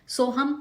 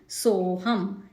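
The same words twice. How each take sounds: First: The first vowel 'so' is said short. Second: The first vowel 'so' is slightly lengthened. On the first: The speaker calls it wrong. "सोहम नहीं करेंगे हम" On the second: The speaker calls it right. "सोहम ऐसे बोलेंगे"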